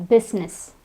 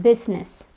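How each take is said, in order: No difference in how they are said.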